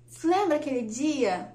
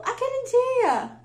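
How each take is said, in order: First: Said in the usual way. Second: "Aquele dia" high, drawn out and insistent; pointed hint. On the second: Retold or imitated. Husband nudging wife's memory, "Aquele dia" pointedly high and drawn out. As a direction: stretch "Aquele dia" slowly at a raised pitch.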